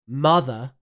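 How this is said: It is said in an RP accent. "R P"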